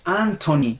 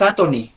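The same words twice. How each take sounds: First: "Anthony" with long first syllable; careful, stretched "Anthony"; correct pronunciation. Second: "Anthony" run together quickly; unemphasised "Anthony"; wrong pronunciation. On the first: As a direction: draw out AAN in Anthony. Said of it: "Es Anthony". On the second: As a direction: say Anthony short, undrawn. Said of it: "No es Anthony". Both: Shown as a demonstration.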